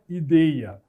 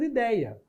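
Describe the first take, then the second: First: The 'ei' is said with a closed vowel. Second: The 'ei' is said with an open vowel. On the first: The speaker calls it wrong. "Ninguém vai falar ideia" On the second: The speaker calls it right. "Continua sendo ideia"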